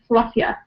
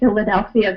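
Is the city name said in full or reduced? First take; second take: reduced; full. First: The name is shortened, with syllables dropped. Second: The name is said clearly with every syllable. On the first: "we might pronounce it in this reduced form" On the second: "saying Philadelphia very clearly"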